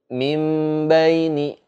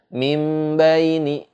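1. Huruf m ditahan dengan dengung hidung. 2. Huruf m ditahan dengan dengung hidung.

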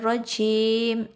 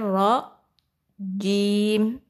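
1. Bunyi j berdesis, napas keluar. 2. Bunyi j bersuara, napas ditahan dulu. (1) "jangan syaitonir rajim, jim itu hamas" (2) "padahal jim itu jahar. Ada tertahan dulu"

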